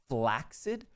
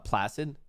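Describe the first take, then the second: First: It is said unlike placid. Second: It is said to rhyme with placid. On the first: The speaker calls it right. "the true pronunciation is flaccid" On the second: The speaker calls it wrong. "isn't actually supposed to be pronounced uh, placid, like Lake Placid"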